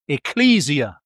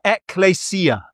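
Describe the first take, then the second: First: The word is said with anglicized pronunciation. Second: The word is said with Greek-style pronunciation. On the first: "but we normally call it ekklesia" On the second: "if you want to pronounce it properly"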